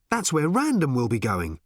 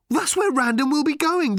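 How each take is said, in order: First: Said in the usual way. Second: Much higher and louder, thrilled; excited shout. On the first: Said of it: "said Arthur with a start". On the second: Acted. Arthur realising where Random is heading, excited shout. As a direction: blurt it out loud and high in excitement. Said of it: "said Arthur excitedly".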